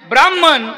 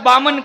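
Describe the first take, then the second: First: The word is said in full, with all consonants. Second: The word is shortened, dropping the consonant cluster. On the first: The speaker calls it right. "शब्द काय आहे?" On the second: The speaker calls it wrong. "आपण त्याला बामन करून टाकलं, अपभ्रंश झाला"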